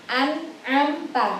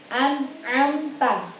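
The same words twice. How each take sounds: The two takes are said the same way.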